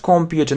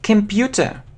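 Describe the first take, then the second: First: The first vowel is a full 'o' sound. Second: The first vowel is a weak 'uh' sound. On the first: The speaker calls it wrong. "Not computer" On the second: The speaker calls it right. "So this sound is eh, eh, computer. ... the same as the last sound"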